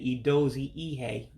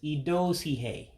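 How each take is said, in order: First: The two words are said separately, both vowels kept. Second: The words run together with one vowel dropped. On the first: The speaker calls it wrong. "Instead of saying Idozi Ihe" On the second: The speaker calls it right. "you run the words together and drop one of the I's"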